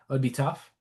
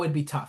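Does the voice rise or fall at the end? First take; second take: rises; falls. First: The voice rises at the end, as a question. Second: The voice falls at the end, as a statement.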